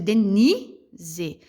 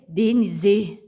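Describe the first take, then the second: First: The stress is on the second syllable. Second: The stress is on the last syllable. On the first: The speaker calls it right. "pode ver que o ni, ele fica mais certo" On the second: The speaker calls it wrong. "Se eu fosse jogar a sílaba mais forte no C"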